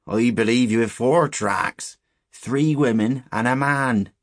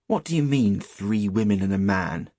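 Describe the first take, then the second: First: Slow, loud rustic pronouncement; higher, drawn-out countryman's voice, emphatic; ominous old shepherd. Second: Put-on challenging boy. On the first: Acted. Shepherd telling boys whose tracks they are, ominous. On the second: Stanley questioning the shepherd's tale, challenging. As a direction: question the old man's words rudely.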